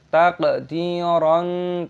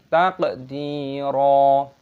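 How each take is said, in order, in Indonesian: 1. Kata ini diakhiri dengan bunyi n. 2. Kata ini diakhiri dengan vokal yang dipanjangkan. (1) "jangan dibaca taqdiran" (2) "tapi taqdira"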